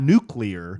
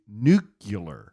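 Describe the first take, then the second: First: It is pronounced like 'new-clee-ar'. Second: It is pronounced like 'nucular'. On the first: The speaker calls it right. "Not nuclear" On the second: The speaker calls it wrong. "would say uh, nu- nuclear"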